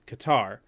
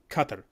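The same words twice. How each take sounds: First: The name is said with American pronunciation. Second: The name is said with Arabic pronunciation. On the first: "the closest thing Americanized to it" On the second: "if you go by how it's pronounced in Arabic"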